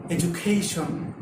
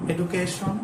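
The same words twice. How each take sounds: First: Education with a j sound, ed-ju-kay-shun; correct pronunciation. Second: Education with a hard d, edu-kay-shun; wrong pronunciation. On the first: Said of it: "The correct pronunciation will be". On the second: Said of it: "pronounce this word like". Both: Shown as a demonstration.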